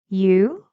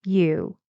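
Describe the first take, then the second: First: "You" swept up loudly like a question; rising intonation. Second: "You" dropping down; falling intonation. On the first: Teacher shows the wrong tune, rising "You". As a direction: push "You" sharply upward. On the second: Teacher corrects the wrong tune, falling "You". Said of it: "Goes down". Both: Shown as a demonstration.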